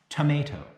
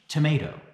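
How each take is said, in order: First: It is pronounced the English way. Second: The same.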